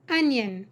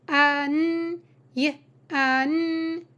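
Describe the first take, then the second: First: Said in the usual way. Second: "An, y, an" as onion in separate drawn-out pieces; sounded out. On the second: Shown as a demonstration. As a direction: stretch and separate each sound: "An, y, an". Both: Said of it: "teaching you to sound out words".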